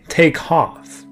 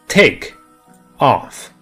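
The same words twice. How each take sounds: First: The k sound runs straight into off. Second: The two words are said separately, with a break. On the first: The speaker calls it right. "a native speaker will say take off. The K sound from take links directly to the O sound" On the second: The speaker calls it wrong. "If I say take off separately, it sounds a bit choppy"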